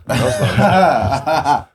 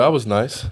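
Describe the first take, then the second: First: Slow, drawn out through laughter; laughing. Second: Said in the usual way. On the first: Real, not acted. Teammate jokes about being generous with seasoning, laughing. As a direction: laugh the words out, slowly.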